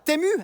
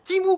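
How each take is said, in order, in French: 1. La première voyelle se prononce 'eh', pas 'ee'. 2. La première voyelle se prononce 'ee'.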